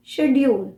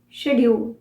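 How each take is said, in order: Both takes have the same delivery.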